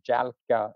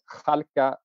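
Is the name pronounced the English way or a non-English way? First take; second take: English; non-English. First: The name is said with an English pronunciation. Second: The name is said with a non-English pronunciation.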